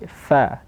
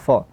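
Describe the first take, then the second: First: The syllable is pronounced light and thin. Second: The syllable is pronounced heavy and thick. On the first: The speaker calls it right. "tapi seperti fa, tipis" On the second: The speaker calls it wrong. "tidak boleh tebal fa"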